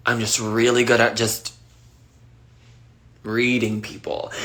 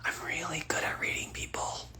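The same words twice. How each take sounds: First: Said in the usual way. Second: Hushed confiding whisper, much softer; a conspiratorial whisper; whispered secret. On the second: Real, not acted. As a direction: let it slip like a secret. Revealing secret superpower, hushed.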